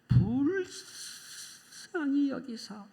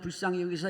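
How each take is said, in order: First: It is stressed and drawn out slowly. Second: It is read quickly without special stress.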